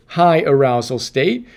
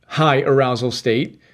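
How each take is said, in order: Both takes have the same delivery.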